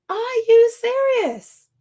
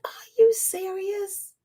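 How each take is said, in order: First: Slow, higher and louder, stressing you; now let the outrage out; outraged disbelief. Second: Slow, stunned disbelief, held back; incredulous. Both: Retold or imitated. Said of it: "And it's like".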